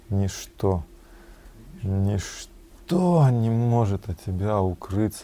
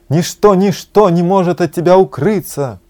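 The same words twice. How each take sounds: First: It is said with a tone of deep regret. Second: It is said with a tone of joyful delight. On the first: Being unable to hide anything is a cause for sorrow. "можно прочитать с сожалением даже, с великим" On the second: Being unable to hide anything is a cause for joy. "А можно с восторгом"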